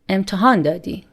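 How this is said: The voice falls at the end.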